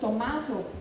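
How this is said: It is said with a British A vowel.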